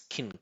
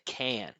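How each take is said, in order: First: The word is short, low and reduced. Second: The word is full, clear and emphasized. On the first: The word is not an important part of the message. "pronounce it really short and low like this" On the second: The word is an important part of the message. "emphasize it, pronounce it really clear"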